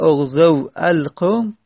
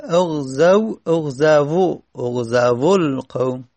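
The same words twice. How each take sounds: First: "اغزو القوم" as oghzaw, then separate al-qawm; vav after fatha. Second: "اغزو" built up from oghzaw to oghzavo; damma on vav. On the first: Teacher sets up the example, "اغزو القوم" unjoined with aw ending. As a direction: close "اغزو" on aw before a full "al". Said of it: "وو قبل از فتحه است". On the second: Teacher adds damma step by step, "اغزو القوم" ending joined as oghzavol-qawm. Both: Shown as a demonstration.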